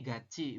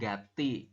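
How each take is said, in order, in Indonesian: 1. Konsonan di tengah terdengar seperti 'ch'. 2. Konsonan di tengah terdengar seperti 't'. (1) "dibacanya gachi" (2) "bukan gati"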